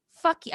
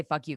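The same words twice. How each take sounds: First: High, loud burst of defiance; mock retort. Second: Said in the usual way. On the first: Imagined reply to parents, high loud outburst.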